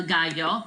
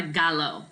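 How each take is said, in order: First: Gallo with the double L as Y, "GA-yo"; Y sound. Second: Gallo said with an English L, "GAL-oh"; wrong L sound. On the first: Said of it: "two L's make a". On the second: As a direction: mispronounce "gallo" with a plain L sound. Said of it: "So it's not a gallo". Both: Shown as a demonstration.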